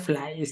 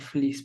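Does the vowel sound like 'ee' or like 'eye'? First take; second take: eye; ee. First: The vowel sounds like 'eye'. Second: The vowel sounds like 'ee'. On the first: The speaker calls it wrong. "porque yo decía flies" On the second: The speaker calls it right. "ahí encontré que se pronuncia fleece"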